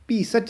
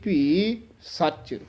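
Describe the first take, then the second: First: The words run on without a pause. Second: There is a short pause before the last word. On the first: The speaker calls it wrong. "ਭੀ ਸੱਚ ਨਹੀਂ ਕਹਿਣਾ ਹੈ" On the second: The speaker calls it right. "ਥੋੜਾ ਜਿਹਾ ਠਹਿਰਾ ਦੇ ਕੇ ਫੇਰ ਨਖੇਰ ਕੇ ਬੋਲਣਾ ਹੈ ਸੱਚ"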